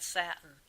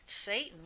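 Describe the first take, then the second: First: "satin" said as SAT-in, short A as in cat. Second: "Satan" said as SAY-tan, long A. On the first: Medium correcting the word to the fabric, SAT-in. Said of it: "the word he used to use was satin". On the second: Medium contrasting the word she heard with satin, SAY-tan. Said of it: "but it sounds like Satan". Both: Shown as a demonstration.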